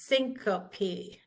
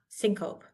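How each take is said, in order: First: The word is said with three syllables. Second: The word is said with two syllables. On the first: The speaker calls it right. "It's syncope, three" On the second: The speaker calls it wrong.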